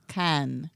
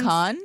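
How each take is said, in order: First: The vowel is a French-style 'eh' sound. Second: The vowel is an open 'ah' sound. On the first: The speaker calls it right. "but it's can. ... It's a eh sound. In French" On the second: The speaker calls it wrong. "It's not con"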